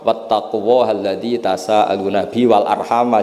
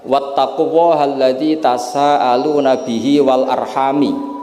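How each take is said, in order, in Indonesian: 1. Kata terakhir berakhir dengan vokal 'a'. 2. Kata terakhir berakhir dengan vokal 'i'. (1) "jumhur memang bacanya wal arhama diatafkan ke Allah" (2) "Kalau dibaca wal arhami artinya ada maktuf pada maktuf alih dhamir majrur"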